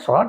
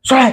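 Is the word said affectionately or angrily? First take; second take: affectionately; angrily. First: The word is said in a warm, affectionate tone. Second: The word is said in a sharp, angry tone. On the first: The listener feels friendliness and love. "ସେଇଟା ସ୍ନେହର ଶଳା ହେଇଗଲା" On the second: The listener feels insulted and gets angry. "ଯଦି ରାଗି ... ସେଟା ରାଗିକି"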